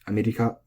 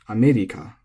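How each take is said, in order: First: The pitch stays level across the word. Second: The word has a marked pitch accent. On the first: "But in Japanese, it's flat" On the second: "that's how we say it because it's America"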